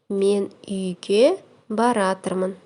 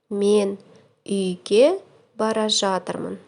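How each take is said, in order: First: The verb is shortened to one word: baratyrmyn. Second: The verb is said in full: bara zhatyrmyn.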